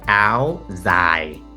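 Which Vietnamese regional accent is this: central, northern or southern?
northern. It is said in a northern Vietnamese accent.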